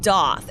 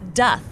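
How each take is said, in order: First: The vowel is not a short u sound. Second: The vowel is a short u sound. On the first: The speaker calls it wrong. "It's not doth" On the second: The speaker calls it right. "It's a short U vowel sound"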